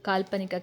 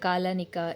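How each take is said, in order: First: The lp consonant cluster is clearly pronounced. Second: The consonant cluster is dropped and replaced. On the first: The speaker calls it right. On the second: The speaker calls it wrong.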